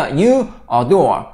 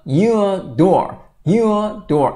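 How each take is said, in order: First: Slow "You adore" with each word separate; a full, detached "a" in "adore" after "You". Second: "you adore" as you-a DORE, the a joined to you; linked words. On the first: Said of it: "단어별로 발음하려고 그래요". ("You adore"를 단어별로 끊어서) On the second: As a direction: attach the weak "a" to "you", then stress "dore". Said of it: "앞으로 붙는다". ("you adore"의 a를 앞에 붙여 '유어 도어') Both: Shown as a demonstration.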